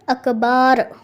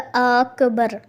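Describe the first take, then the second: First: The second vowel is drawn out long. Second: The first vowel is drawn out long. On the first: "या अकबार कहा" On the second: "अलिफ़ बढ़ा दिया"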